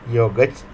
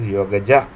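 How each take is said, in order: First: The word ends on the consonant, no final vowel. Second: The word ends with an added final vowel.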